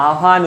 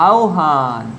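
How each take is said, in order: First: আহ্বান said as a-han, no o-glide; common mispronunciation. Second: আহ্বান said as au-han, falling; correct pronunciation demo. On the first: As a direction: drop the ব sound in আহ্বান, just "ahan". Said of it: "আমরা অনেকেই কি উচ্চারণ করি". (আহ্বান-কে ভুল করে "আহান" বলা) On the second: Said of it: "আ উচ্চারণ হলে কি হবে". (আহ্বান-এ ব হয় ও, "আওহান") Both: Shown as a demonstration.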